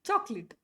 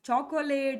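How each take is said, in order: First: The middle vowel is dropped, giving two syllables. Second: The word is said with three full syllables. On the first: The speaker calls it right. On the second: The speaker calls it wrong. "ಚಾಕೊಲೇಟ್ ಅಂತ ಕರೆಯೋಂಗಿಲ್ಲ"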